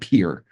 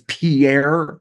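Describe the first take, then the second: First: The name is said as one syllable, like 'peer'. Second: The name is said with two syllables, ending 'air'. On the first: The speaker calls it right. "It's called Pier" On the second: The speaker calls it wrong. "if you were told it's Pierre, South Dakota in school, it is not"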